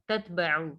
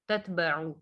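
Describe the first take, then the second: No difference in how they are said.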